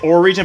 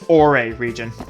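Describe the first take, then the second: First: Ore is said like the word 'ore'. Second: Ore is said unlike the word 'ore'. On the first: The speaker calls it wrong. "I know it looks like Ore region" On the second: The speaker calls it right. "but it's Ore region"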